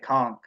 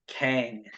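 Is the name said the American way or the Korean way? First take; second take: Korean; American. First: The name is said with the Korean pronunciation. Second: The name is said with the American pronunciation. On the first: "if you go to Korea, you'd say Kong" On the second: "That's how we say it in America"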